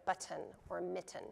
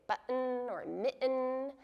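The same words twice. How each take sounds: First: "button or mitten" with a true T in the middle; sounded T. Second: "button or mitten" with throat catches replacing the T; glottal stop. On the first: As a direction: release the T in "button" and "mitten", no throat catch. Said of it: "instead of a t". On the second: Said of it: "use a glottal stop in the middle". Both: Shown as a demonstration.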